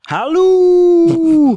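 It is said in a Tigger impression voice.

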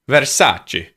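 The pitch drops sharply across the word. "It is funny with Italian that it always seems to go down"

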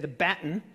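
Baton is said the way Australians say it.

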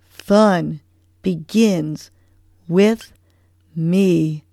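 It is said with strong conviction.

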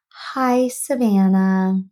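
The greeting sounds somber and subdued. "Every other call that I've received has just been somber"

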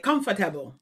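It is said with a Jamaican pronunciation.

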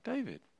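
The voice falls at the end.

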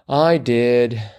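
It is said in a sheepish, embarrassed tone. The speaker is embarrassed to admit it. "that was my attempt at a sheepish tone"

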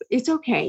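It is said in a soft, pitying, gentle voice. The listener is being pitied and soothed. "not like, oh, dear Diane, poor Di"

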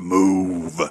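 The word is said in a deep voice.

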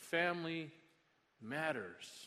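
The stress falls on the word 'matters'. It says that family is important. "We put the emphasis on the second word"

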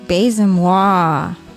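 It is said with passion, meaning it.

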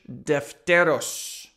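The name is said with a Spanish accent. "That's a Spanish accent because I speak Spanish"

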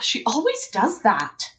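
The tone is annoyed and judging. The speaker is judging the person. The speaker calls it wrong. "What if instead of"

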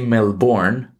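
It is said the way a tourist would.

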